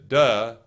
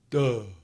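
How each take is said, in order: First: It sounds plain, with a neutral voice. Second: It sounds dark and dopey, with a lowered larynx. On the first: "if I just say duh, duh, it doesn't do much" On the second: "But if I say duh, duh, it drops"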